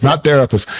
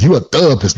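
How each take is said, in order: First: Said in the usual way. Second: Put-on "therapist" squeezed to "thuh-pist" in a Southern accent; mock-Southern "therapist" with the middle mushed; Southern mispronunciation. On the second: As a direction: imitate mom's Southern way of swallowing "therapist". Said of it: "in her southern, um, uh, accent".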